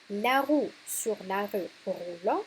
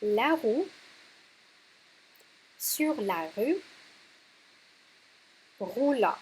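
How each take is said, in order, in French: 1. La phrase est dite rapidement, en enchaînant. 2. La phrase est dite lentement, puis une pause. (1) "si vous le prononcez plus rapidement" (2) "avec des pauses"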